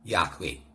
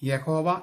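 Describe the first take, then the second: First: The name has two syllables, yah-weh. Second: The name has three syllables, ya-ho-va. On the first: The speaker calls it right. "യാഹ്വേ എന്ന് ഉച്ചരിക്കണം" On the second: The speaker calls it wrong. "അത് തെറ്റായ ഉച്ചാരണമാണ്"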